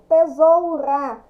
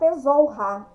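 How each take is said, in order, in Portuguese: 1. O R é fraco, uma batida leve. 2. O R é forte, um som pesado. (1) "Quando eu falo o R tremendo" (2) "Se eu fosse colocar dois R"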